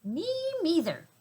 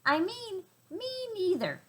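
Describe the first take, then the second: First: Tiny high mouse voice, stress on "neither"; tiny little voice. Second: Tiny high mouse voice, stress now on "me"; tiny little voice. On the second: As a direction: correct yourself, hitting "me" in "me neither". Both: A narrator's reading. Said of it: "said a tiny little voice".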